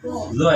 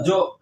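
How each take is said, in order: First: It starts with a z sound. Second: It starts with a j sound. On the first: This is the correct articulation of the letter. The speaker calls it right. "harus dibetulkan dengan makhraj, yaitu dengan zo" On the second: This is a regional Sundanese habit. The speaker calls it wrong. "sama orang Sunda biasanya jo ya jo, ah, jangan"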